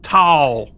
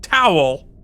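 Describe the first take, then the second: First: The word is said with one syllable. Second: The word is said with two syllables. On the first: The speaker calls it wrong. "not towel" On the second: The speaker calls it right. "There are two syllables in the word towel"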